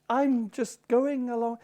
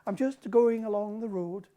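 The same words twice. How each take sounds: First: Put-on slow, sing-song Western Highland accent; gentle lilting Highland Scots. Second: Put-on sing-song Western Highland accent. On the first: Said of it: "the Western Highland accent is lovely". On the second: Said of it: "it's almost like a song".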